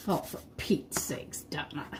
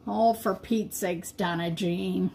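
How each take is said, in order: First: Breathy whisper, no voice; whispered self-scolding. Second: Self-scolding plain. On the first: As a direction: mutter it to yourself under the breath. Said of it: "repeats exasperation, whispered". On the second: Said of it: "got me all riled up". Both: Real, not acted.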